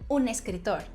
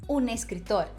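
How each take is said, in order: The two takes are said the same way.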